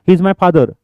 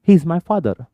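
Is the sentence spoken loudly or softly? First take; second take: loudly; softly. First: It is spoken forcefully at a loud volume. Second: It is spoken at a calm, normal volume. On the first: The speaker calls it wrong. "इतना जोर से बात करने की जरूरत नहीं" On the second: The speaker calls it right. "बस हो गया ना"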